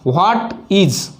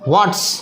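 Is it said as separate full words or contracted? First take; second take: full; contracted. First: Both words are said fully and separately. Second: The words are reduced and run together.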